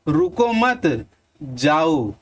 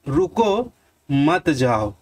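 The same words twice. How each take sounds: First: There is a pause after the second word. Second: There is a pause after the first word. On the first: The listener is told to leave. "अब मैं इसी को यहां से हटा देता हूं और यहां लगा देता हूं।" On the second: The listener is asked to stay. "अब थोड़ा देर रुकेंगे, आप ठहरेंगे"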